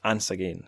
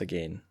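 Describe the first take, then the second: First: Ance again with the Scots vowel in Ance. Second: Said in the usual way. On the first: Shown as a demonstration. Correcting his reading to the Scots Ance again.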